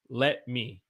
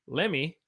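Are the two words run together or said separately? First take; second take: separately; run together. First: The two words are said fully and separately. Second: The two words blend into one reduced word. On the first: "Lemmy means let me" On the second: "it sounds weird, Lemmy"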